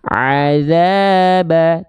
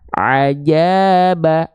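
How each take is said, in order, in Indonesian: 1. Huruf tengahnya bunyi th yang lembut. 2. Huruf tengahnya bunyi j. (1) "yang harusnya kita baca azaba" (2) "tapi kita baca ajaba"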